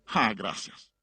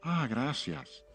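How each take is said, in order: First: It sounds cold and displeased. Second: It sounds warm and sincerely grateful.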